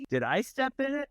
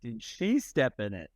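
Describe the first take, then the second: First: Higher-pitched "Did I step in it?", checking oneself; retold anxious self-check on "I"; questioning stress on I. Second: Low, dawning "Did she step in it?"; stress on SHE. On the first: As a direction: wonder aloud with a lifted "I". Retold self-check after near miss. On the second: Retold or imitated. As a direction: lean on "she" as suspicion sinks in. Retold dawning realization about daughter.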